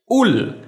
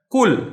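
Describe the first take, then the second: First: The word begins with a glottal stop. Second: The word begins with a k sound.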